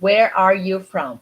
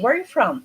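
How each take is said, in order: First: The R sounds are fully pronounced. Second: The R sounds are softened and reduced. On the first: The speaker calls it wrong. "you don't pronounce it" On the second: The speaker calls it right. "in reality, we say"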